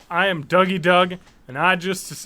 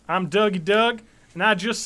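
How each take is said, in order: First: It is read in an ordinary, unaccented voice. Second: It is said in a put-on Texas accent.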